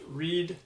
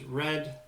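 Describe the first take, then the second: First: The vowel is a long 'ee' sound. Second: The vowel is a short 'eh' sound. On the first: The speaker calls it wrong. "not read" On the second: The speaker calls it right. "make sure we're pronouncing that as red"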